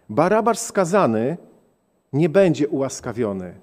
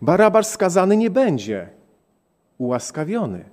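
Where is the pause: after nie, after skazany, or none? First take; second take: after skazany; after nie. First: There is a pause after skazany. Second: There is a pause after nie. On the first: The condemned man will not be pardoned. "A teraz postawmy przecinek. ... co oznacza śmierć" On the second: The condemned man will be pardoned. "ten sam przecinek postawmy w innym miejscu. ... To oznacza życie"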